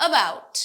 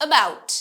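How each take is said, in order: Both takes have the same delivery.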